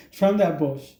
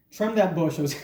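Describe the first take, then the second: First: Slow, chuckling through the words; amused slowed-down echo of the line; laughing repeat. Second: Said in the usual way. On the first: Retold or imitated. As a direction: laugh as you say it again. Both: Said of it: "There's always a first time".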